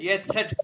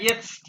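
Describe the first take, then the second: First: An extra vowel splits the word into two parts. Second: The consonants run together with no extra vowel. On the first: The speaker calls it wrong. "इसका मतलब है एस और सेट और टी के दरमियान एक ई है" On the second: The speaker calls it right. "क्या इसके दरमियान एक ई की बात आती है?"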